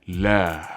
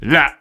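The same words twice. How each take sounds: First: The word ends openly without a glottal stop. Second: The word ends abruptly with a glottal stop. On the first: "the Arabic la" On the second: "There's a glottal stop. It's very cut"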